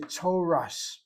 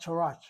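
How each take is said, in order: First: The word ends with an S sound. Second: The word ends with a T sound. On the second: "Sfaradim say Torat"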